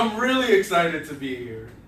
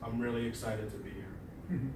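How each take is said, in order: First: It sounds open and really excited. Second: It sounds flat and neutral.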